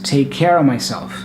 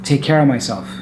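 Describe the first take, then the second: First: The word of is reduced to uh. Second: The same.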